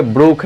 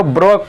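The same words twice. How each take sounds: First: ब्रूक with an "oo" vowel; corrected Brooke. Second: ब्रोक with a long "o" vowel; mispronounced Brooke. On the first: Shown as a demonstration. Teacher correcting students' reading of the surname, ब्रूक with "oo". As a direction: say the poet's surname as ब्रूक, with "oo" instead of "o". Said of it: "अरे भाई ब्रोक नहीं". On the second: Retold or imitated. Teacher showing students how some misread the surname, ब्रोक with an "o". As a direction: misread the poet's surname as ब्रोक, rhyming with "broke". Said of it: "कुछ लोग इसको ब्रोक पढ़ने लगते हैं".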